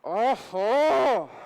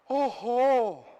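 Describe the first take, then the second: First: It is said angrily through clenched teeth. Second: It is said with fear.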